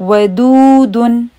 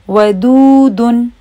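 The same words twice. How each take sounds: The two takes are said the same way.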